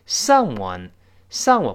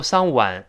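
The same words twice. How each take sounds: First: "Someone" slowly, ending in a rounded "wun"; correct w sound. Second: "someone" mispronounced as sang-wan; mistaken "wan" ending. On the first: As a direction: round the lips into w for the "one" of "Someone". ("Someone"后半读成圆唇的w音) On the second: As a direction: demonstrate the wrong "wan" vowel in "someone". ("someone"错读成"桑万") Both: Shown as a demonstration. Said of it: "不要读someone".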